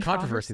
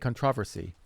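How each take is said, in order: First: It is said the way the UK does not. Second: It is said the way the UK does. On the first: "They don't say controversy" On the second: "they say controversy"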